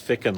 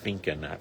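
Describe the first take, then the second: First: It rhymes with chicken, with no n sound. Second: An n sound comes before the k. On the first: The speaker calls it right. "It's Ficken like chicken" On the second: The speaker calls it wrong. "say Finken for some reason"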